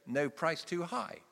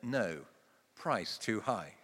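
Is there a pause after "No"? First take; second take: no; yes. First: It is said as one phrase without pause. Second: There is a pause after "No".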